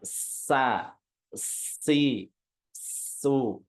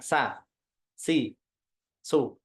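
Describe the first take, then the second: First: A hissing airflow comes before each vowel. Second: The s starts at once with no lead-in hiss. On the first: The speaker calls it right. "tapi ada ada alirannya dulu di depan" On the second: The speaker calls it wrong.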